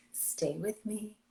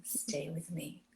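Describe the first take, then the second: First: Slow, soft and sweet; sweet sexy voice. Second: Slow breathy whisper, much softer; sexy whisper. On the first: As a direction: coax him gently, slowly. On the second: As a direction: whisper it to pull him close. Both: Shown as a demonstration. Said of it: "in that sweet, sexy voice".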